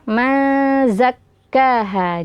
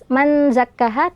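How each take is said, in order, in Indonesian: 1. Bunyi n disamarkan dan didengungkan. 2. Bunyi n diucapkan dengan jelas. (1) "juga dibaca dengung" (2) "menjadi izhar jelas"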